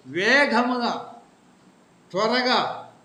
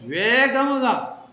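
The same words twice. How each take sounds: First: Slow stretched emphatic word; preacher drawing out వేగముగా again; fast. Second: Drawn-out slow emphatic word; fast. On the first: Preacher repeating వేగముగా to the flock, slow and stretched. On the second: Preacher stretching వేగముగా out for the flock, slow and emphatic. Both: Shown as a demonstration.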